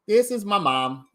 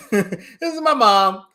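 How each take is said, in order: First: Said in the usual way. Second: Laughing. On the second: Real, not acted. Repeats it laughing.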